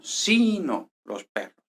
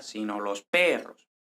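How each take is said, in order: First: SI of "Sino" high and stretched, slow phrase; emphatic sino. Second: Unstressed "sino los", PERROS drawn out; stress held until perros. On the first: Teacher repeating the emphatic contrast, stress on first syllable of "Sino". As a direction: draw out and punch SI in "Sino". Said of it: "si hiciéramos énfasis porque queremos contrastar muy bien". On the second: Teacher showing the accent comes late, stress on PERROS. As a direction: pass lightly over "sino", lean on PERROS. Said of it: "El acento no viene hasta". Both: Shown as a demonstration.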